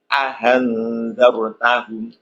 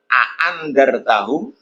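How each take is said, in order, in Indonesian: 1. Hamzah kedua dilunakkan, dibaca meluncur ke arah vokal. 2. Hamzah kedua dibaca penuh sebagai hentian. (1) "itu namanya dibaca tasil" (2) "itu namanya tahqiq"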